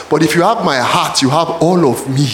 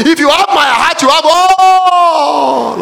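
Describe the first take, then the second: First: Said in the usual way. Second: Loud, high, slow preaching; a slow full-voiced pulpit shout; shouted and drawn out. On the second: Shown as a demonstration. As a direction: hammer the line home, slowly. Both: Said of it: "Are the brothers listening now?".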